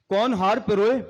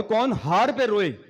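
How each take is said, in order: First: कौन हार पे रोए with पे रोए run together as piroye, rising end; threading-garland reading. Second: कौन हार पे रोए with हार drawn out, falling end; crying-over-defeat reading. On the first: Speaker showing the garland meaning, piroye joined and rising. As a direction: join पे रोए into one word, lift the end. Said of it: "हार डालते हैं". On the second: Speaker showing the defeat meaning, हार stressed, falling. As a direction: stretch हार, keep पे apart from रोए. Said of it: "किसी की हार होगी तो वो रोए". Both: Shown as a demonstration.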